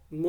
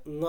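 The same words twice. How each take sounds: First: ঙ said as the full letter name "uŋo", drawn out; wrong full letter name. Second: ঙ said as a bare nasal "ng" with no vowel after it; the ঙ sound as heard in words. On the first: Teacher shows the wrong way to practise the letter. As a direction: say ঙ as the whole alphabet name, the way not to. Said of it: "যদি এরকমভাবে অভ্যাস করি, তাহলে সেটা ভুল হবে". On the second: Teacher shows the correct sound heard in words, short nasal. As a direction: give ঙ as the short "ng" heard in ব্যাং. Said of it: "কোন সাউন্ড আসছে?". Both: Shown as a demonstration.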